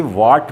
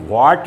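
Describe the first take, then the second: First: वाट with a plain w, no h; silent H. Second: वाट as the wrong reading, with the h sounded after w. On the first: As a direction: drop the h at the start of वाट. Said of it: "इसे वाट पढ़ना चाहिए". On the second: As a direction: breathe an h into the start of वाट. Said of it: "को वाट नहीं पढ़ना चाहिए". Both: Shown as a demonstration.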